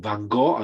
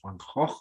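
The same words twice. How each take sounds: First: The name is said in an American accent. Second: The name is said in a Dutch accent. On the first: The speaker calls it wrong. "as you say in American" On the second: The speaker calls it right. "I believe it was Van Gogh or something like that"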